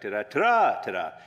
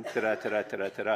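First: "Ta-da" belted much louder, then dropping; emphatic fanfare. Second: Said in the usual way. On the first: Shown as a demonstration. Preacher showing how bold emphatic text should feel, loud fanfare. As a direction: announce "Ta-da" like a fanfare demanding attention. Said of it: "It's like". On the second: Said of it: "it's not just".

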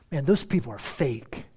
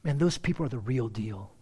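First: Scornful "Man, those people are fake", dismissive; disdainful. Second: Admiring. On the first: Churchgoer's neighbour judging them, disdainful. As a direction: sneer at the hypocrites. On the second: Acted.

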